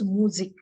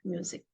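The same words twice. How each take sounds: First: It is said with German sounds. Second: It is said with English sounds. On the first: The speaker calls it right. "it is music" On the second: The speaker calls it wrong. "not music"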